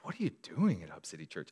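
It is asked in a hopeful, curious way.

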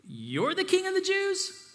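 It is asked in a demeaning, mocking tone.

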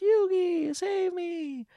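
It is said in Mokuba's little voice.

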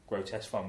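The stress is on fun.

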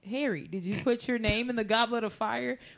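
It is said calmly and evenly.

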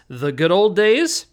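It is said as a question, rising.

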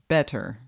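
It is said in an American accent. "if we want to say that with an American accent, we say better"

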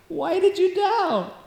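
It is said warmly, laughing and smiling.

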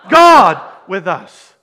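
The stress falls on the word 'God'. It is God who is with us. "the emphasis on the first. Who's with us?"

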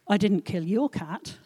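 The stress falls on 'your'.

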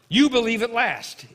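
It is said as an exclamation.

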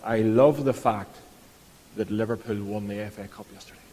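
It sounds gushing and delighted.

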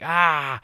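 It is an angry scream.

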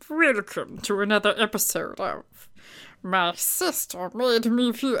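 It is said in a put-on voice.

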